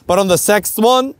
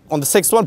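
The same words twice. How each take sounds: First: "sixth" said "sekst" in a German accent. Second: Said in the usual way. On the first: Real, not acted. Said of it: "my German accent coming through". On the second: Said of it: "pardon me, my German accent coming through".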